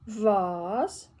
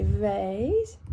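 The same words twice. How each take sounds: First: British vase, rhymes with cars; British pronunciation of vase; vase with a broad ah. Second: Vase rhymed with face, American style; American pronunciation of vase. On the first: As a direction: say vase as vahz, long open ah. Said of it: "If I was American". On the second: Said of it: "If I was American, that'd be". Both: Shown as a demonstration.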